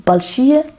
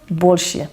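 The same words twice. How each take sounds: First: Большие, stressed on the first syllable, rising; БОЛЬшие, the stress up front. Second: Большие, stressed late and falling; больШИЕ, stress moved to the end; большие, final syllable stressed; stress on the last syllable. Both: Shown as a demonstration. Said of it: "which is only in the accent".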